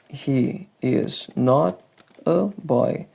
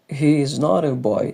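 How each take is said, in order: First: The sentence is said at an ordinary, careful pace. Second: The sentence is said quickly with words run together.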